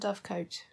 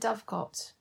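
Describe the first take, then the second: First: The last syllable has a long vowel, like 'coat'. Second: The last syllable has a short vowel, like 'cot'. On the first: The speaker calls it wrong. "not a dovecoat" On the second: The speaker calls it right. "he's a dovecot"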